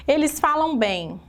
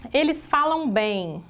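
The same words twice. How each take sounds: First: Said in the usual way. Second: Slow dictation. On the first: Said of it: "example sentence said again". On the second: Shown as a demonstration. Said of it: "teacher dictates the example sentence".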